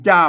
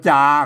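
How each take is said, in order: First: The syllable is said with the special tho tone. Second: The syllable is said with the plain sǎaman tone. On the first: "มันจ้ามันเสียงโทพิเศษแล้วครับ" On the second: "เพิ่นอ่านว่าจาครับเสียงสามัญ"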